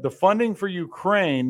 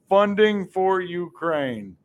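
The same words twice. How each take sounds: First: Said in the usual way. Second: "Funding" hit hard, each word separated and falling; sarcastic, deliberate emphasis on "Funding"; slow stress on Funding. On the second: Real, not acted. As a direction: spell out Funding for Ukraine slowly as the point. Slow emphatic repeat of catchphrase.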